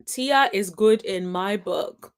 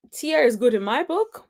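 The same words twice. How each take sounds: First: Slow, measured words with "book" falling; slow falling tune. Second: "book" lifted at the end like a question; rising tune. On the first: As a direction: spell it out slowly, closing down on "book". Repeats the verdict slowly, as final. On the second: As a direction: let the pitch climb on "book". Same verdict said twice, tune changed. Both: Real, not acted.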